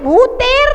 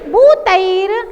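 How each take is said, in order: First: The second vowel is a plain 'e'. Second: The second vowel is the diphthong 'ai'. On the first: The speaker calls it wrong. "अरे भूतेर नहीं है" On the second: The speaker calls it right. "तैर तैर आई की मात्रा"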